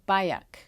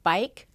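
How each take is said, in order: First: An extra uh vowel is inserted inside the word. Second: The word is said as one plain syllable. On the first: The speaker calls it wrong. "a schwa is like an uh, and this can happen within a single syllable word" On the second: The speaker calls it right. "instead of bike"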